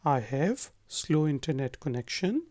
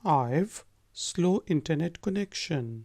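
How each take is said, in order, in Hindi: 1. 'I have' दो पूरे शब्दों की तरह बोला जाता है। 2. 'I have' को छोटा करके एक शब्दांश में बोला जाता है, 'I've'।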